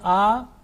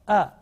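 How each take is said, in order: First: The vowel is drawn out long. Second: The vowel is cut short. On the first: The speaker calls it wrong. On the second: The speaker calls it right.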